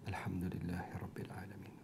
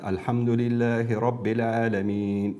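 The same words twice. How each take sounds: First: It is recited softly, barely audible. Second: It is recited loudly, like an imam.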